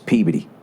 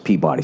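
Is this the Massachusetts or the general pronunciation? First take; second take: Massachusetts; general. First: It uses the Massachusetts local pronunciation. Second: It uses the general pronunciation used elsewhere. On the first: "When you're in Massachusetts, it's it's Peabody" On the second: "everywhere else, it's Peabody"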